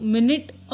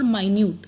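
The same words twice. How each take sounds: First: Minute said as "MIN-it"; time sense of minute. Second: Minute said as "my-NYOOT"; tiny sense of minute. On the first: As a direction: say minute with a short first vowel, "min-it". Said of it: "I will tell you minute और minute". (minute को "मिनिट" बोलें) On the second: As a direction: say minute with a long i, "my-newt". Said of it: "Minute means क्या होता है?". (minute को "माइन्यूट" बोलें) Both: Shown as a demonstration.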